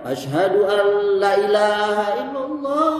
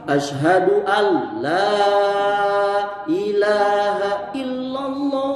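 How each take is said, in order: First: The vowel in 'la' is cut short. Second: The vowel in 'la' is held long. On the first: It affirms there is a god besides Allah. The speaker calls it wrong. "enggak boleh" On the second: It denies any god besides Allah. The speaker calls it right.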